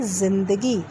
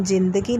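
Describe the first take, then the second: First: जिंदगी with a z sound, zindagi; correct z sound. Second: जिंदगी with a hard j sound; wrong pronunciation. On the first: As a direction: say जिंदगी with a buzzing z. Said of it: "हम क्या बोलते हैं". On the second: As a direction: say जिंदगी with j as in jam. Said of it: "हम जिंदगी नहीं बोलते". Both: Shown as a demonstration.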